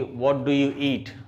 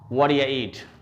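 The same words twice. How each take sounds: First: It is said at normal speed, fully. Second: It is said fast and run together.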